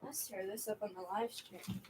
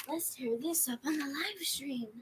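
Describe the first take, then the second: First: Said in the usual way. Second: Whispered, higher; whispered playful take. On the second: Shown as a demonstration. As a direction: breathe the whole line. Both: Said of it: "repeating in varied voices".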